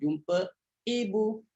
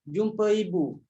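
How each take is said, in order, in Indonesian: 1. Kedua kata itu dipisahkan oleh henti glotis. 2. Kedua kata itu tersambung dengan lancar tanpa henti. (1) "Dia secara tahqiq begitu" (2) "Itu tasghir"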